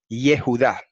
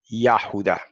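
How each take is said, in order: First: The first vowel is an 'e' sound. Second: The first vowel is an 'a' sound. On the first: This is the later scribal vocalization. The speaker calls it wrong. "los masoretas lo vocalizaron Yehudá" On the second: This is the older, original vocalization. The speaker calls it right. "más correcta y más antigua es Yahudá"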